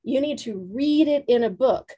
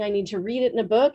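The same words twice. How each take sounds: First: "read" and "book" punched, measured pace; emphatic echo. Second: Quick, run-together "I need to read it in a book"; quick plea. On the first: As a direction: land firmly on "read" as you echo it back. Trainer echoes her words back emphatically. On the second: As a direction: rattle the request off quickly. Student's own quick plea, later echoed. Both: Retold or imitated.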